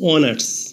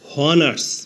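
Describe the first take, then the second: First: The word begins directly with a vowel sound. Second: The word begins with an audible h sound. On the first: The speaker calls it right. "এইচ এর উচ্চারণ না হয়ে vowel ও থেকে উচ্চারণ শুরু হয়েছে অনার্স" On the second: The speaker calls it wrong. "প্রথমে এইচ ধরে উচ্চারণ করলে হয় হনার্স"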